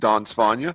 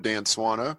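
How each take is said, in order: First: The name is said with Swedish-style sounds. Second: The name is said with English-style sounds. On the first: "The Swedish pronunciation is" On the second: "the anglicized version probably goes something like"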